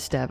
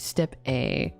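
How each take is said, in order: First: The word is said with one syllable. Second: The word is said with two syllables. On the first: The speaker calls it right. "It's step as in step" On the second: The speaker calls it wrong. "it ain't step A"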